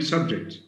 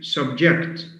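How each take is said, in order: First: The stress is on the first syllable. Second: The stress is on the second syllable. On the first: "stress on the first syllable" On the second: "shift stress to the second syllable"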